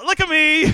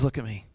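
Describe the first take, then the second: First: High-pitched, amused exasperation; exasperated insistence. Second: Low, soft command; quiet insistence. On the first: God answering all of Gideon's excuses, exasperated. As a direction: demand attention in a high voice. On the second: God calling Gideon to face him, quietly firm. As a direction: say it softly and firmly. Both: Acted.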